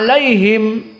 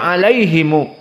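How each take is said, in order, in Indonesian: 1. Kata ini berakhir dengan bunyi m. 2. Kata ini berakhir dengan tambahan vokal u. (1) "berhenti pada him" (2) "Bisanya alaihimu"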